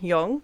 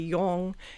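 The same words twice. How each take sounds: First: The pitch rises at the end of the word. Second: The pitch stays level throughout the word. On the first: "some would rise at the end" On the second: "some words would like be flat"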